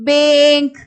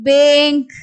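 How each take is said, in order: First: The vowel is a long 'ay' sound. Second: The same.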